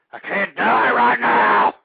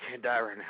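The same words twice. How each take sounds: First: Desperate shout. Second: Said in the usual way. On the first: Acted. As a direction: yell it out like you're dying. Panicked host yells into mic.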